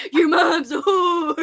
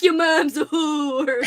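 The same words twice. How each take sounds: First: Slow, cheery sing-song insult; a light, playful take on the Nelfs' threat; jolly Nelf line. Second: Slow, cheerful mock insult; lightly voiced, jolly Nelf, far from menacing; jolly not menacing. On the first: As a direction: toss it out like a jolly little creature. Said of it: "you gotta say it like that". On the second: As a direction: make the threat sound merry, not scary. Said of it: "it's so jolly". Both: Shown as a demonstration.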